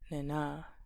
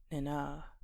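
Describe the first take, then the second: First: The stress is on the second syllable. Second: The same.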